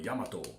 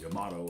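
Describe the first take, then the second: First: The stress falls on a less expected syllable. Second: The stress falls where English speakers would expect. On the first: This is likely the correct Japanese placement. The speaker calls it right. "it's probably Yamato, ... it's counterintuitive" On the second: This is how an English speaker would naturally say it. The speaker calls it wrong. "So I'd call it Yamato"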